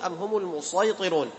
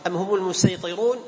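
First: The s-sound is an emphatic, heavy s. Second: The s-sound is a plain, light s. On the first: "ولك أن تقرأ بالصاد" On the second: "لك أن تقرأ بالسين"

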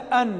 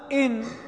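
First: The word begins with an 'a' vowel. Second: The word begins with an 'i' vowel. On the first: It gives a reason. "أن بالفتح" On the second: It states a condition. "إن بالكسر"

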